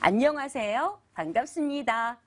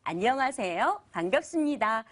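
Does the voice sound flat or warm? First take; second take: warm; warm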